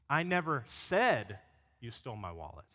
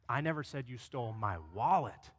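First: The stress is on "said". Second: The stress is on "wallet".

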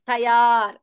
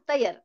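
First: The marked vowel is held long. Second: The marked vowel is said short. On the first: The speaker calls it right. "to show that that letter is long" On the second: The speaker calls it wrong. "not tayar"

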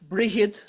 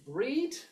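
First: A middle consonant sound is heard between vowels. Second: No middle consonant, with one long vowel. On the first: This is the older medieval form of the name. "pronounced more or less as it was spelt in the Middle Irish period" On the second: This is the modern form of the name. "in modern Irish is Breed"

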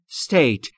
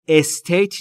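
First: The word starts directly with the s sound. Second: An extra vowel is added before the s sound. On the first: The speaker calls it right. "دقت بکنید تلفظ state" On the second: The speaker calls it wrong. "estate نیست. اولش ا نداره"

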